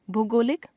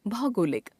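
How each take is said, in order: First: भूगोलिक begun "bhoo" instead of "bhau"; wrong pronunciation. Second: Said in the usual way. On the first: Shown as a demonstration. Teacher showing a common error, भूगोलिक begun as "bhoo". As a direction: put a long oo in the start of भूगोलिक. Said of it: "अशुद्ध". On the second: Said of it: "शुद्ध".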